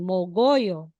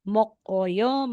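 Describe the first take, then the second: First: The middle consonant is a voiced G sound. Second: The middle consonant is a clear K sound.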